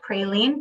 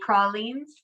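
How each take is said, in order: First: The word is said in a Northern way. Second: The word is said in a Southern way.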